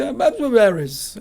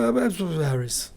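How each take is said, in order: First: A louder, higher, half-irritated repeat of the name; imitating an annoyed caller. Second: Said in the usual way. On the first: Caller repeating her name to the intern, mock annoyed. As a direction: bark the name back, fed up at having to repeat it. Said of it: "Ela, meio brava". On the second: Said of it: "E ela falou".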